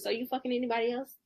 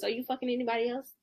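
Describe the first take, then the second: First: It is said in a soft, sweet voice. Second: It is said in a soft, sweet voice.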